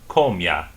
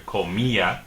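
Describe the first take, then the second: First: The i and a blend into one syllable. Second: The stressed i and a are separate syllables. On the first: The speaker calls it wrong. "if there was no accent mark here, this would be pronounced comia" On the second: The speaker calls it right. "makes it an extra syllable"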